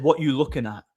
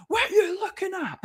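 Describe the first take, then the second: First: Said in the usual way. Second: Very high-pitched mocking yell, half laughing; mock shout. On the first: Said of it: "He said". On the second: Junkie shouting over at the doorman, mock high-pitched shout. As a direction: imitate a distant shouter in a silly high voice. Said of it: "this guy shouts over".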